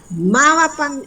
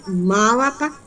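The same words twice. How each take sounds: First: Mávapa started high and falling; teacher stressing the question word Mávapa; high questioning read. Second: Said in the usual way. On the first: Shown as a demonstration. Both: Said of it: "que hay una pregunta".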